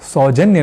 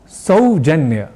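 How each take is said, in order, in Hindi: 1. पहला स्वर क्षेत्रीय हिंदी के ढंग से बोला गया है। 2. पहला स्वर शुद्ध संस्कृत के ढंग से बोला गया है। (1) "मैंने सौजन्य नहीं कहा" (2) "हमने कहा"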